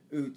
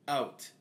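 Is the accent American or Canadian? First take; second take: Canadian; American. First: The vowel is said in a stereotyped Canadian way. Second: The vowel is said in an American way.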